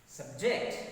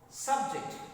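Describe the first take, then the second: First: The stress is on the second syllable. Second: The stress is on the first syllable. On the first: The word is a verb. "stress is shifted to second syllable when the words are verbs" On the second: The word is a noun. "I use that force on first syllable in my utterance"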